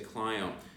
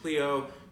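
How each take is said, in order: First: It is pronounced the local New Orleans way. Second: It is pronounced the standard way. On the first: This is how locals say the street name. The speaker calls it wrong. "you say Clio" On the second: This is how the name is normally said. The speaker calls it right. "instead of saying Cleo"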